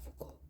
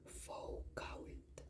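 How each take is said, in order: First: The name is said smoothly with French sounds. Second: Every letter of the name is sounded out. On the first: "yo sé que se pronuncia Foucault" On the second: "hago mucho énfasis en cada letra"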